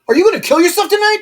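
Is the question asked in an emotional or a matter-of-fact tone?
emotional. The question sounds charged and emotional. The speaker calls it wrong. "it's not"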